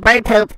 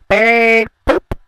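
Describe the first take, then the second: First: It is said plainly and quickly. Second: It is said in a drawn-out old-man voice.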